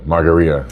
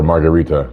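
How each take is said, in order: First: "Margarita" with the t dropped, ending "-ee-a"; "Margarita" softened to end in a vowel glide "ria"; corrected pronunciation. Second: "Margarita" with a clear t before the final a; "Margarita" ending in "-ee-ta"; mistaken pronunciation. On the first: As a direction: say "Margarita" without its t. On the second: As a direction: say "Margarita" like the drink, t sounded. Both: Shown as a demonstration. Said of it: "I wanted to say that the first time".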